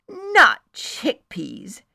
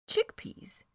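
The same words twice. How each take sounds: First: Not chickpeas, loud, high and slow; emphatic not chickpeas. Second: Chickpeas as a careful question; tentative chickpeas. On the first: Friend corrects the narrator, not chickpeas said emphatically. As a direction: stretch and punch NOT chickpeas. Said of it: "she said emphatically". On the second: Narrator dives in to clarify, chickpeas asked tentatively. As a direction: chickpeas asked gently, testing the water. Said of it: "so I dove in". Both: Acted.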